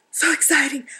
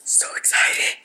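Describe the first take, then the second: First: Said in the usual way. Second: Thrilled, voiceless whisper; excited whisper. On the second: Real, not acted. Crafter marvelling at the bits and pieces sent to her, excited whisper. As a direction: whisper it with breathless delight.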